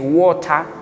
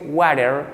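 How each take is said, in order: First: It is said with a British accent. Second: It is said with an American accent. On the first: "como dicen en Londres" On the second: "si es inglés americano"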